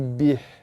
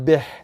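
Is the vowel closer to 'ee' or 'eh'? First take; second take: ee; eh. First: The vowel sounds close, like 'ee'. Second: The vowel sounds open, like 'eh'. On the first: The speaker calls it right. "tapi bih" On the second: The speaker calls it wrong. "Bukan beh"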